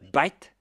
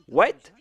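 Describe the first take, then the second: First: It starts with a B sound, Indian English style. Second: It starts with a W sound, unaccented.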